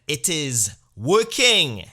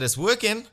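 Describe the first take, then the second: First: Loud, drawn-out, heavily weighted confession; slow heavy repeat. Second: High, loud strained yelp of it's working; high-pitched startled confession; squeaky admission. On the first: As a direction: drag every word out like a sultry growl of pride. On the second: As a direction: blurt it out, voice jumping high. Admits the treatment works. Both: Retold or imitated.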